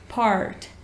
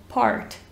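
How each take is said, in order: First: It is said with an American accent, R pronounced. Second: It is said with an American accent, R pronounced.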